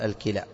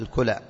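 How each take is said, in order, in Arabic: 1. الحركة الأولى في الكلمة هي i. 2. الحركة الأولى في الكلمة هي u. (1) "وخطأ أن تقول الكلى" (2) "الصواب في نطقها الكلى"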